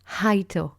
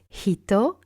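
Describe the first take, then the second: First: The first vowel sounds like 'eye'. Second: The first vowel sounds like 'ee'. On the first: The speaker calls it wrong. "not haito" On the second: The speaker calls it right. "it's hito"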